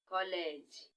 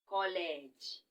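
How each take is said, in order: First: It is said with Igbo pronunciation, kolege. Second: It is said with Igbo pronunciation, kolege.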